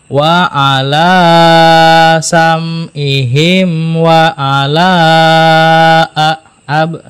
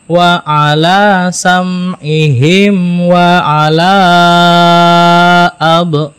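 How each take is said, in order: First: All the long vowels are held the same length. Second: The last long vowel is held much longer. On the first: The speaker calls it wrong. "ini nggak ada bedanya" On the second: The speaker calls it right. "yang dua harokat di ayun"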